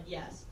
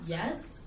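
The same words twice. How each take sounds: First: YES low and soft, no question; a quiet, settled YES without the rise; immediate YES. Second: YES rising sharply like a question. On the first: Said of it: "I immediately was just like". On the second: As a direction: say YES unsure, pitch sliding up. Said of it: "Question mark?". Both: Retold or imitated.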